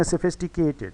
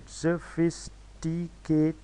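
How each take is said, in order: First: Said in the usual way. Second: sophisticated slowly split into five separate syllables; slow sophisticated in five distinct beats. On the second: Shown as a demonstration. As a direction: sound out sophisticated with a pause between syllables. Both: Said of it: "इसमें five syllables हैं".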